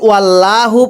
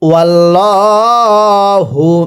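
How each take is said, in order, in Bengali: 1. ডাবল ল পাতলা ও সরু। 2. ডাবল ল মোটা ও ভারী। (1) "তাহলে আর পড়াটা শুদ্ধ হবে না" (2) "ল করে মোট অর্থাৎ মোটা করে পড়তে হয়"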